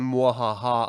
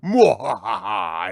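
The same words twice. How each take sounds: First: Quick mock villain cackle; a light evil mwahaha; evil villain laugh. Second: Slow, loud, drawn-out villain cackle; evil villain laugh. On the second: Acted. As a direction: cackle like a mustache-twirling villain. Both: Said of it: "twisting his evil curled mustache and saying".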